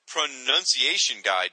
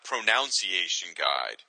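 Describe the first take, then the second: First: The second syllable sounds like 'nun'. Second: The second syllable sounds like 'noun'. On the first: The speaker calls it right. "it's pronounced" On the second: The speaker calls it wrong.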